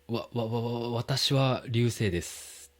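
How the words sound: The first syllable is stuttered several times.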